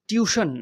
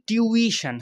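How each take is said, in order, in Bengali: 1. শব্দটি দুটি সিলেবলে বলা হয়। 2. শব্দটি তিনটি সিলেবলে বলা হয়। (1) "টিউশন না" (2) "উচ্চারণটা কিন্তু টিউইশন"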